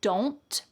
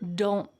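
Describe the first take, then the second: First: The final T is fully released. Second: The final T is stopped without air release.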